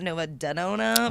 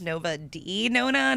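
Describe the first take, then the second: First: The D is blended into one word as 'de'. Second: The D is said as the separate letter name. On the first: The speaker calls it wrong. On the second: The speaker calls it right. "It's it is pronounced"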